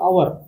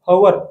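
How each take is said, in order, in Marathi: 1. हा शब्द स्वराच्या आवाजाने सुरू होतो. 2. हा शब्द h आवाजाने सुरू होतो. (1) "ओ असतो किंवा अवर असतो" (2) "आपण ह वाचताना वाचतो पण तसं नसतं ते"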